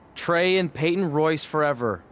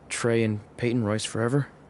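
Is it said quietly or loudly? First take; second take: loudly; quietly. First: It is said loudly. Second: It is said quietly.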